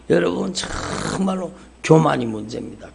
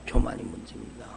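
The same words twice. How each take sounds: First: Said in the usual way. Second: Soft echo. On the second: Acted. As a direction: repeat it much lower and softer, letting it sink in. Preacher echoes his point softly.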